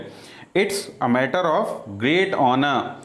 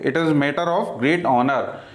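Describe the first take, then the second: First: "It is" is shortened to one syllable, "it's". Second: "It is" is said as two full words. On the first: The speaker calls it right. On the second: The speaker calls it wrong.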